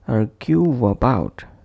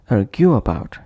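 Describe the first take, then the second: First: A soft w glide links the two words. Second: The words are said without a linking glide. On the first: The speaker calls it right. "but instead we will say argue about" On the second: The speaker calls it wrong. "pronounced as argue about"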